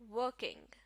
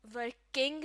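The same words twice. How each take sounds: First: working with the stress on work, the first part; stress on first syllable. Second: working with the stress on king, the second part; wrong stress, second syllable. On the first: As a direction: hit the start of working. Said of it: "stress शुरू के हिस्से पर होगा". (Working में शुरू के हिस्से पर ज़ोर) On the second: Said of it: "working नहीं". (वर्किंग में दूसरे हिस्से पर ज़ोर) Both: Shown as a demonstration.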